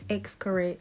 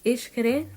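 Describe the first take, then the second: First: The name begins with an 'eks' sound. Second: The name begins with an 'ish' sound. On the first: This is how many visitors first say it. The speaker calls it wrong. "at first, I was saying Xcaret" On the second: This is believed to be the local pronunciation. The speaker calls it right. "I believe that's how you say it"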